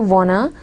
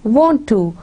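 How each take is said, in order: First: The two words blend into one reduced form. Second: Both words are pronounced fully and separately. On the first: It is casual American speech. The speaker calls it wrong. "Don't say wanna" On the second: It is standard language. The speaker calls it right. "say want to"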